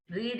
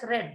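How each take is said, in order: First: The word is said with a long ee vowel. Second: The word is said with a short e vowel. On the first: It is the present tense. "Read is present tense" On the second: It is the past tense. "we pronounce it as read, which is past tense"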